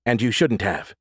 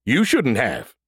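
First: Said in the usual way. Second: Sing-song mocking echo of her words. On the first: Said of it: "original line before mocking". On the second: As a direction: parrot her back childishly. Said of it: "said Brody mockingly".

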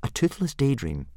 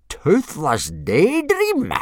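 First: Put-on high, mild boy voice; explaining boy. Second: Loud, high, slow disbelief; blustering. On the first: Boy explaining his dragon to the instructor, mildly. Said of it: "explained Hiccup". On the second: Instructor repeating the boy's answer, blustering. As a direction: stretch it out in blustering outrage. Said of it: "blustered Gobber". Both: A narrator's reading.

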